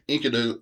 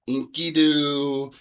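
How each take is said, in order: First: The middle vowel is short. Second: The middle vowel is long. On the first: This follows the older, familiar usage. "the way I learned it" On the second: This follows the new translation. "all those middle vowels ... should be long vowels"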